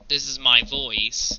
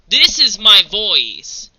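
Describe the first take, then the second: First: It is said calmly and quietly. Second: It is said loudly.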